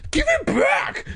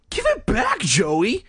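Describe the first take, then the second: First: High, strained angry cry; angry insistence. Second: High-pitched, exasperated demand; exasperated sigh. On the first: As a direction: demand it back in an angry outburst. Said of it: "Greg insisted angrily". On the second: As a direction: plead wearily, pitch leaping up. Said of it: "Greg said with a sigh". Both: A narrator's reading.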